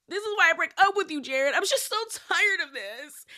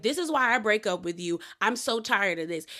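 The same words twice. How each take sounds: First: Fake voice-crying. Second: Said in the usual way. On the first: Recapping Brittany's exit to Jared, fake crying. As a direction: force the voice to crack with no tears. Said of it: "voice crying thing where there's no tears". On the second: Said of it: "she's like".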